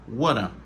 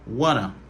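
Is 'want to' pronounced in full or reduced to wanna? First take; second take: wanna; wanna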